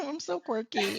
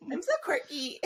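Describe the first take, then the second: First: High mock quirky girl. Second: High mock quirky girl again, laughing. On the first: Friend mocking a quirky girl persona, high and cutesy. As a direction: play the quirky girl, sing-song. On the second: Friend repeating the quirky girl mock, high and cutesy.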